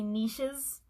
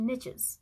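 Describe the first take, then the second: First: It is said the fancy, French-sounding way. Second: It is said the plain, everyday way. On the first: "it feels weird to say niches all the time. Like, I feel like I'm trying to be too fancy" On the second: "I'm going to go with the niche pronunciation here"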